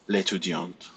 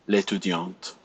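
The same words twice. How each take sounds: No difference in how they are said.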